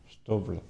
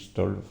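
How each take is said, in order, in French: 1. Le son L vient après le son V. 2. Le son L vient avant le son V.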